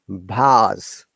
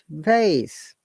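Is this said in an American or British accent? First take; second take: British; American. First: It is said with a British accent. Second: It is said with an American accent. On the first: "And British English" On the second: "American English"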